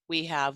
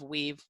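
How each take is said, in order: First: It is said as two full words. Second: It is said as one contracted syllable.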